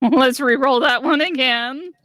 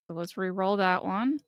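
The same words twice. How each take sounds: First: Loud, higher, laughing through it. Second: Said in the usual way. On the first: Real, not acted. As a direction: laugh as you ask for it.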